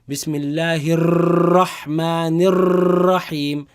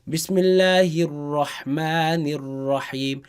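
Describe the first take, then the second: First: The r is rolled with repeated taps. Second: The r is a single steady tap. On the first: The speaker calls it wrong. "we do not say ... That is wrong" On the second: The speaker calls it right. "you keep the sus tongue suspended there"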